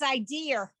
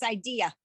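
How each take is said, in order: First: The word ends with an added R sound. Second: The word ends on a plain vowel, no R. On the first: The speaker calls it wrong. "pronounce the word I D E A as if it's idea" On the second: The speaker calls it right. "And it's not, it's idea"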